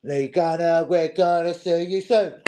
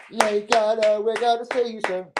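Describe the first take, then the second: First: Said in the usual way. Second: High put-on menacing voice; sing-song warning to Lee Gunner; mock threat. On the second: Taunting Lee Gunner on stream, high mock-menacing voice.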